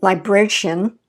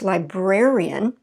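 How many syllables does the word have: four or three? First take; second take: three; four. First: The ending is squeezed into one syllable. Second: The ending is split into two separate syllables. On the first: The speaker calls it wrong. "We don't say" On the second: The speaker calls it right. "So it's librarian"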